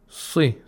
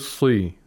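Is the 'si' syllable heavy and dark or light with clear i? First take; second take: light; heavy. First: The syllable is lightly darkened with a clear i. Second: The syllable is heavily darkened, muffling the i. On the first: The speaker calls it right. "At the lowest level because of the Kasra" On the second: The speaker calls it wrong. "We don't say Si. We don't apply too much tafkhim"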